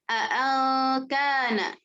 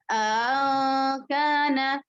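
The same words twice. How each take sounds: First: Both glottal stops are pronounced clearly. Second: The second glottal stop is softened. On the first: "membaca dengan tahqiq dua hamzahnya" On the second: "tahqiq hamzah pertama dan tashil hamzah keduanya tanpa idghal"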